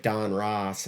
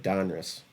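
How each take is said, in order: First: "Don Ross" as two full words, ROSS drawn out; stressed second syllable. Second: "Donruss" as one word, stress on DON, weak "russ"; run-together name. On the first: Host showing both ways he said it, "Don Ross" in two full words. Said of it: "I said Don Ross". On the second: Host showing his other way, "Donruss" stressed on DON with a weak ending. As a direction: say "Donruss" with a short, reduced second syllable. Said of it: "and then I said Donruss". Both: Shown as a demonstration.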